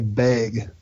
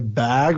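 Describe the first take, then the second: First: The word has a regional accent vowel. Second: The word has a standard vowel. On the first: This is how locals say it. "We have a stupid accent too, ... we say bag" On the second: This is how outsiders say it. "we don't say bag"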